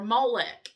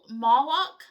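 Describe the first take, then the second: First: The second vowel sounds like 'e'. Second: The second vowel sounds like 'o'. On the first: "I always say Molech, M O L E C H, which I know is probably the Southern" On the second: "M O L O C H"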